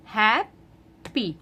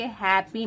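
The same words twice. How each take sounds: First: हैप्पी said slowly as two beats, hap-pi; split into syllables. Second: Said in the usual way. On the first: Shown as a demonstration. Teacher showing parents the syllables of हैप्पी, slow and split. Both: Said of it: "दो syllables हैं".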